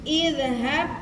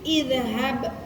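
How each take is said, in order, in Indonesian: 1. Kata ini diawali dengan vokal 'i'. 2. Kata ini diawali dengan vokal 'i'.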